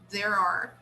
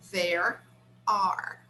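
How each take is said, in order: First: The two words are joined without a break. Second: The two words are said with a break between. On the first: The speaker calls it right. "it's like they connect actually the two words by linking the sound" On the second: The speaker calls it wrong. "We don't usually say there are separately"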